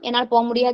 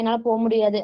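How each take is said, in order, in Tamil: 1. இது கோபமான, அழுத்தமான குரலில் சொல்லப்பட்டது. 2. இது மிகவும் மென்மையான, பலவீனமான குரலில் சொல்லப்பட்டது. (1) "கோபமா சொன்னா" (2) "ரொம்ப சாஃப்டா சொன்னோம்னா"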